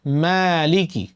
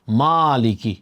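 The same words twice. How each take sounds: First: "মালিকি" with a light, fronted "mae" first syllable; thin correct vowel. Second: "মালিকি" with a broad, thick aa in the first syllable; heavy wrong vowel. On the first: Teacher showing how it must be said, thin-vowelled "মালিকি". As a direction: say "মালিকি" thinly, mouth less open. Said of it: "আপনাকে বলতে হবে". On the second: Teacher showing learners the common mistake, heavy-vowelled "মালিকি". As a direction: say "মালিকি" with a heavy, wide-open "maa". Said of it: "মা মোটা হয়ে গেল". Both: Shown as a demonstration.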